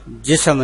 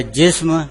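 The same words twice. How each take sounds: First: جسم said jisam, an extra a between s and m; جسم stretched to two syllables, ji-sam; mispronounced جسم with an added vowel; common wrong pronunciation. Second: جسم said jism, s and m joined with no vowel between; جسم as one closed syllable, jism; clipped جسم with no extra vowel; correct pronunciation. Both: Shown as a demonstration. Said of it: "جسم نہیں ہے".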